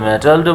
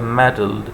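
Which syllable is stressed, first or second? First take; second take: second; first. First: The stress is on the second syllable. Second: The stress is on the first syllable. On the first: The speaker calls it wrong. "अगर metalled बोलते तो फिर टी में stress आता" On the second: The speaker calls it right. "सही उसकी जो pronunciation है वो है मेटल्ड"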